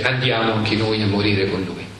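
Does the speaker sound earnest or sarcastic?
earnest. It is said in an earnest, resolute tone. The speaker is bravely willing to die alongside him. "da una parte si possono leggere come Tommaso che dice"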